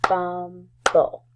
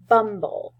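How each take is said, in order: First: "Bumble" as bum, pause, ble, both beats loud; split into syllables. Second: Said in the usual way. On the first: Shown as a demonstration. Teacher clapping with first graders, "Bumble" split as bum... ble. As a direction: clap out "Bumble" in two separate pieces. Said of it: "let's clap out the syllables". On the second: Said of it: "So say it with me".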